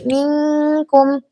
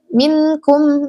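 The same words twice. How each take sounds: First: The n is hidden into a nasal hum. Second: The n is pronounced clearly and fully. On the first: The speaker calls it right. "Yang dibaca ikhfa" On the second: The speaker calls it wrong. "Jangan dibaca"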